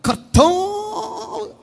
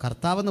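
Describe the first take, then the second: First: കർത്താവ് sung out much higher, slow and trembling, with a vibrato on the vowels; preacher's vibrato Karthavu. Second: Said in the usual way. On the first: Shown as a demonstration. Preacher showing the congregation how to say കർത്താവ് with a long, high trembling vibrato. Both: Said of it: "കർത്താവെന്ന് പറയില്ല".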